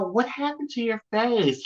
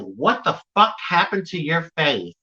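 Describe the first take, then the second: First: It is said in a concerned, caring tone. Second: It is said in a rude, mean tone.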